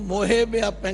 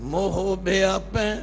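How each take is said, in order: First: The first word ends with an added 'e' vowel. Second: The first word ends without an added vowel. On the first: The speaker calls it wrong. "आम लोग इसनूं मोहे व्यापै कहते हैं, ये मोहे नहीं" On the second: The speaker calls it right. "यह है मोह"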